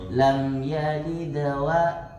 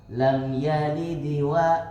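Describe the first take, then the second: Both takes have the same delivery.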